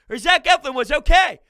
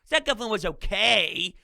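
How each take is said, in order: First: It is said in an approving, positive tone. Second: It is said in a lukewarm, unimpressed tone. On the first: The pitcher did well. "you could say it as like" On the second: The pitcher was only mediocre. "I'm saying it more like, eh"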